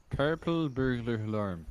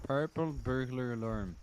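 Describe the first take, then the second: First: "purple burglar alarm" in a firmer Scottish accent; better Scottish attempt. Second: "Purple burglar alarm" with a Scottish accent that doesn't quite land; failed Scottish attempt. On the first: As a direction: nail the Scottish "alarm" this time. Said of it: "That's better". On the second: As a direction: try the Scottish "alarm" and miss it. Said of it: "that sounds so". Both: Shown as a demonstration.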